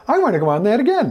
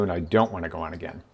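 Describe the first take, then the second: First: High, loud, rapid demand; excited eagerness. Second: Low, softer, quick dismissal; unenthusiastic refusal. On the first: Kids begging for another ride, excited eagerness. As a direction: burst out like an eager kid. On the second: Rider who has had enough, unenthusiastic refusal. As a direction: decline it with lowered pitch and no excitement. Unimpressed rider declines another go. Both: Acted.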